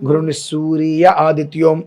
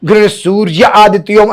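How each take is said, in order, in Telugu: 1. ప్రతి అక్షరం, ri తో సహా, స్పష్టంగా పలుకుతారు. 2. ఇది తొందరగా పలుకుతారు, అక్షరాలు కలిసిపోతాయి. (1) "రి అనేటువంటిది స్పష్టంగా పలకాలి" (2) "అని అనేస్తారు హడావిడిలో. సూర్య పోయిందిగా"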